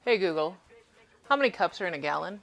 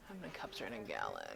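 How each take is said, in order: First: Louder, clearly projected question; raised voice for a device to hear; addressing voice assistant. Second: Low, soft thinking aloud; private, under-the-breath wondering; muttering to self. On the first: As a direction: put the question to a smart speaker. Asks the voice assistant after muttering. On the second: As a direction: mutter the question to yourself, low and quiet. Mutters question to herself before asking aloud. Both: Real, not acted.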